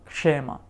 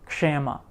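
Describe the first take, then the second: Both takes have the same delivery.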